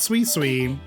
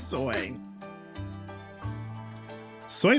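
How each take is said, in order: First: Each syllable has an 'ee' vowel, like sweet. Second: Each syllable has an 'oy' vowel, like soy. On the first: The speaker calls it wrong. "it's not sweet sweet" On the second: The speaker calls it right. "it's soy soy"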